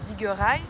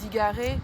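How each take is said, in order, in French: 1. La dernière voyelle devient un son 'eye' ou 'ay'. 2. La dernière voyelle est un son 'e' simple. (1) "et ben à Groix, on va dire" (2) "le mot euh, digaré, qui veut dire désolé"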